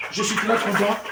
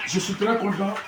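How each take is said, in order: Both takes have the same delivery.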